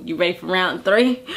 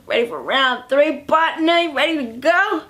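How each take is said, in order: First: Lightly acted low, casual come-on; low-key invitation. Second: Playful, rising come-on; hammed-up eager invitation. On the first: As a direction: ask it low and easy. [name]'s first, low-key invitation. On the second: Same invitation repeated, hammed up.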